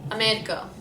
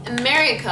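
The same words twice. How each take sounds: First: America with a Lebanese tapped R; Lebanese accent. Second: America in a louder American accent. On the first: Answering for viewers, Lebanese accent. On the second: Announcing the next word to viewers, American accent. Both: Shown as a demonstration. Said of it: "how do we say America".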